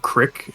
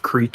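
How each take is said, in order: First: It is said with a short vowel, crick. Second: It is said with a long vowel, creek.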